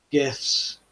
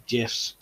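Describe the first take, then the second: First: "gifs" opening on a hard g sound. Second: "gifs" opening on a j sound; soft g. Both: Shown as a demonstration. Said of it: "or gifs".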